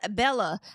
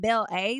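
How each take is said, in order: First: The name is said smoothly as Bella. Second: The name is split into Belle and A. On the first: The speaker calls it right. "I think that's how you say her name" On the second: The speaker calls it wrong. "I was saying Belle A. Like, girl, what is that?"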